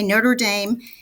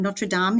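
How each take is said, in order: First: It is said with an American pronunciation. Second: It is said with a French pronunciation.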